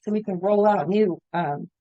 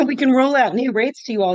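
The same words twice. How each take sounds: First: Hoarse, voice giving out; raspy whisper. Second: Said in the usual way. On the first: Real, not acted. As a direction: voice cracking and fading. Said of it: "I'm losing my voice all of a sudden". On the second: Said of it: "losing my voice".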